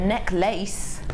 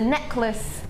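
First: The second syllable sounds like the word lace. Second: The second syllable is reduced and short. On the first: This is how a friend says it. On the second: This is the usual way to say it.

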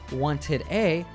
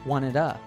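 First: The two words are said separately. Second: A flapped D joins the two words. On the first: "Instead of wanted A" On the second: "pronounce the final D in wanted as a flap D and continue the sound by joining it with A"

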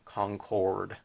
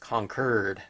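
First: The name is pronounced the way outsiders say it. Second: The name is pronounced the way locals say it. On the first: The speaker calls it wrong. "not Concord" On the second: The speaker calls it right. "They always correct you or anyone in that area. It's Concord"

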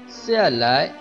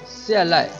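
First: The second syllable has its full tone. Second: The second syllable is light and weak. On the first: It is a verb meaning to come down. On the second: It is a suffix showing movement toward the speaker.

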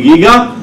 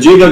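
First: The word begins with a hard g sound. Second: The word begins with a soft j sound. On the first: The speaker calls it right. "אבל האמת שאמורים לבטא את זה למיטב ידיעתי גיגה" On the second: The speaker calls it wrong. "אתם קוראים לזה ג'יגה, גם אני בעברית ככה"

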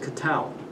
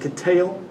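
First: It sounds plain, without the intense second syllable. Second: It sounds intense, with a hard stressed second syllable.

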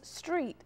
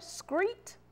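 First: The word begins with an 'str' sound. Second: The word begins with an 'scr' sound. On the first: The speaker calls it right. "It is street, S-T-R-E-E-T" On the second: The speaker calls it wrong. "screet or street"

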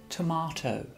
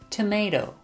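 First: The middle vowel sounds like 'ah' in 'father'. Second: The middle vowel sounds like 'ay' in 'day'. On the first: This is the British way of saying it. "British pronunciation" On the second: This is the American way of saying it. "American pronunciation"

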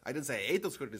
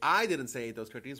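First: The stress is on the word 'ate'. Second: The stress is on the first word, 'I'. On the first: The speaker did something else to them. "I might have squashed them or trampled them or sold them" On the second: Someone else said it. "well, someone else said it"

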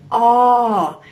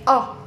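First: The vowel sound is long. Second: The vowel sound is short. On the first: The speaker calls it right. "Dis 'n lang klankie" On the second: The speaker calls it wrong. "ons spreek ons nou nie uit A"

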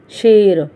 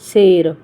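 First: The word begins with an sh sound. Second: The word begins with a plain s sound. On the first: "ਸੱਸੇ ਪੈਰ ਬਿੰਦੀ ਸ਼ੇਰ" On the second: "ਜੇ ਅਸੀਂ ਬਿਨਾਂ ਬਿੰਦੀ ਤੋਂ ਬੋਲਾਂਗੇ"

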